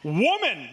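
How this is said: It is said assertively and forcefully.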